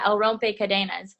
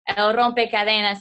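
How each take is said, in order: First: It is said with an English-speaker accent. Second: It is said with a fluent Spanish accent.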